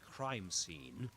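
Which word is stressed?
crime. The stress falls on the first word. It is said as a compound noun. The speaker calls it right. "don't forget that that's crime scene"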